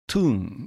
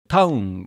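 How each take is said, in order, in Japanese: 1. 母音は長い 'oo' の音です。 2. 母音は 'ow' の二重母音です。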